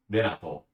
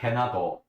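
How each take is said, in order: First: "Renato" begun with a tapped R, close to a D; Japanese pronunciation. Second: "Renato" begun with an H, as "Henato"; H pronunciation. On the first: Showing the character's name in Japanese, tapped R. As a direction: tap the R of "Renato" lightly. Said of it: "in Japanese". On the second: Showing what the name is not in Japanese, H sound. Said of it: "his name is not Renato". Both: Shown as a demonstration.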